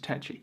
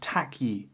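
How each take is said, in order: First: The first vowel sounds like 'eh', ending 'chee'. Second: The first vowel sounds like 'ah', ending 'kee'. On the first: The speaker calls it right. "the correct pronunciation" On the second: The speaker calls it wrong. "That's really not how you pronounce my name"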